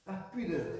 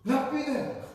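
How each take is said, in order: First: Said in the usual way. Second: Higher, louder restatement; emphatic repeat. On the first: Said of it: "settles the word". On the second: Real, not acted. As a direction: announce the answer to the room. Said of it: "repeats answer loudly". (reprise appuyée)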